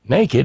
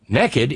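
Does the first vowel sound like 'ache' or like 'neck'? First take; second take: ache; neck. First: The first vowel sounds like 'ache'. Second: The first vowel sounds like 'neck'. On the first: Someone has no clothes on. "Naked, N-A-K-E-D, is the state of having no clothes on" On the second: Someone has no clothes on and is up to no good. "Naked, N-E-K-K-I-D, is the state of having no clothes on and being up to no good"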